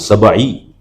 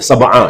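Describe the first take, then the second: First: The word ends with an 'i' vowel. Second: The word ends with an 'a' vowel. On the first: The speaker calls it wrong. "ya salah kalau sab'i" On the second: The speaker calls it right. "yang benar sab'a"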